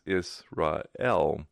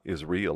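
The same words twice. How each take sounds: First: The ending sounds like 'ray-el', A before E. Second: The ending sounds like the word 'real'. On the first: The speaker calls it right. "but it's Israel, A before E" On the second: The speaker calls it wrong. "It's not Israel, like it's real"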